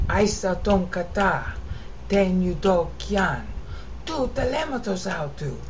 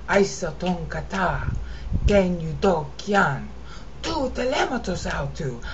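The two takes are said the same way.

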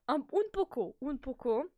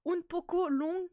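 First: "un poco" repeated with a playful Spanish swing; mock Spanish "poco". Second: "un poco long" sung out slowly with a Spanish lilt; "un poco" stretched, high and rising like a joke Spanish phrase; mock Spanish "poco". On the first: Streamer to chat, playful fake Spanish "un poco". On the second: Streamer to chat, mock Spanish "un poco long" drawn out high. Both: Shown as a demonstration.

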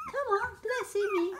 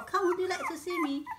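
First: Squeaky quick pet talk, pitched way up; higher, faster coaxing. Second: Said in the usual way. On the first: Real, not acted. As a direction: chirp it quickly at the puppy. Coaxing puppy, repeated take.

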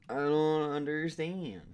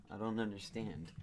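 First: Drawn out, louder and higher whine; mock despair. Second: Said in the usual way. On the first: Shown as a demonstration. Gamer whining at the puzzle in mock despair. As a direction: wail it in mock frustration. Repeats line, second more dramatic.

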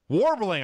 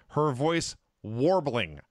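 First: Warbling it higher and louder, voice wobbling; mock warble. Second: Said in the usual way. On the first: Shown as a demonstration. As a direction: make the word wobble like a choked-up announcer. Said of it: "warbling, I say". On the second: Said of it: "I say".

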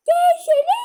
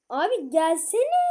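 First: High, loud yell; shouted call. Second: Said in the usual way. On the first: Real, not acted. Shouting at her brother to come, high loud yell. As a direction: yell it across the house.

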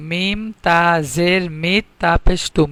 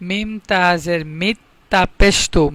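First: Slowed spelling. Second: Said in the usual way. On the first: Shown as a demonstration. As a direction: stretch out each syllable of মিম তা জের মিত.

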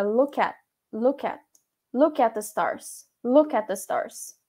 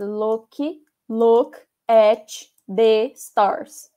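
First: Linked speech. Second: Paused delivery. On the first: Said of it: "ele meio que junta as palavras". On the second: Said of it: "ele não fica falando pausadamente". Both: Shown as a demonstration.

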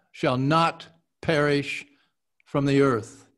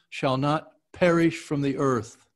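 First: "not" ends on a crisp, hard T; hit the T. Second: Said in the usual way. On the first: Shown as a demonstration. Actor retaking the line for his coach, T struck hard. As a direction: bite the T of "not" before "perish". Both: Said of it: "really hit the T".

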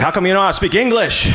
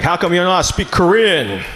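First: Quick, snappy mock retort; fast comeback. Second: Lightly voiced dad, scolding at normal pace; a hint of a stern father asking. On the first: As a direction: fire it straight back, fast. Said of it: "I was like". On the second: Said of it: "He's like".

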